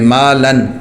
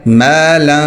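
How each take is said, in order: First: It ends with a clear n, tongue touching. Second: It ends with a hidden, nasal n sound. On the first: The speaker calls it wrong. "अगर हम इसको नॉर्मल पढ़ें तो क्या पढ़ेंगे" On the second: The speaker calls it right. "ज़बान ऊपर नहीं जाएगी"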